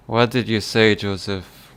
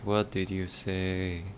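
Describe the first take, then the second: First: Put-on loud Irish accent question; Irish accent, pushed out. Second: Put-on slow, quiet Irish accent; Irish accent, drawn out slowly. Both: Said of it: "I'm doing the Irish accent really well".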